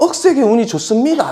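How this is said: It is said in a Gyeongsang dialect accent.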